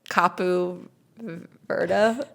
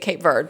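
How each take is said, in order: First: The name is said the local way. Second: The name is said the English way. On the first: This is how people there say it. "they say" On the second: This is how English speakers say it. "but we say"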